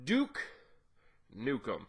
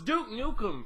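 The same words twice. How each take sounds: First: It is said in an imitation of Duke Nukem. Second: It is said in his normal voice.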